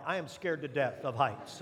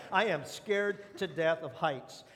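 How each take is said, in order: First: Said in the usual way. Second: Slowed right down, every word weighed; slow emphatic confession. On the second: Shown as a demonstration. Pastor owning up to his fear, slow and deliberate. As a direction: admit it slowly, each word landing. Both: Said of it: "let's just get it out there".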